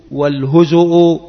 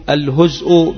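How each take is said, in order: First: والهزء with a short u after the z, "wal-huzu'u"; damma on the zay. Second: الهزء with no vowel after the z, "al-huz'u"; sukun on the zay. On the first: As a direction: say والهزء as "huzu'", two u vowels. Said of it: "بالضم". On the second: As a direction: say الهزء as "huz'", closing straight onto the hamza. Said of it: "بالسكون". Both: Shown as a demonstration.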